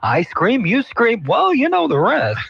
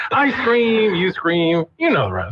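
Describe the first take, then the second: First: Mock news anchor, rising high; sing-song stilted anchor read. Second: Mock anchor voice, starting high; hammed-up news anchor cadence. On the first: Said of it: "They're like". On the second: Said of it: "their anchor voice says".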